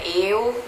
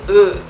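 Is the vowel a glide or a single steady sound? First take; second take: glide; single sound. First: The vowel glides from e to u. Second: One steady vowel with spread, smiling lips. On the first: The speaker calls it wrong. "você não vai ler E, U, não é eu" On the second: The speaker calls it right. "Fala um U de boca fechada sorrindo"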